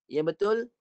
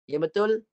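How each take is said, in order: The two takes are said the same way.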